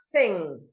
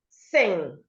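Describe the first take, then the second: No difference in how they are said.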